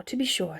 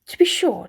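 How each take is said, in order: First: To be sure whispered to himself; whispered aside. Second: Said in the usual way. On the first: A narrator's reading. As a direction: breathe it as a private aside. Repeated phrase, second whispered.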